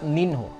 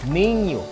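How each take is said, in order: First: The nh is not a nasalized y sound. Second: The nh is a nasalized y sound. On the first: The speaker calls it wrong. "it's not ninho" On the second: The speaker calls it right. "N H in Portuguese takes a nasalized Y sound"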